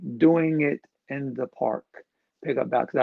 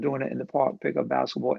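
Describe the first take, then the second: First: The phrase is said slowly and deliberately. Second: The phrase is said at a normal, quicker pace.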